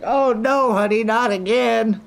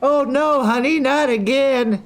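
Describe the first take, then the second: First: High exasperated wife voice; mock wife. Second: High, slow, exasperated wife voice; a weary wife sighing at her husband; mock wife. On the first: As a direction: play the weary wife, hammed up. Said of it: "You guys like". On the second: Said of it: "and he's like".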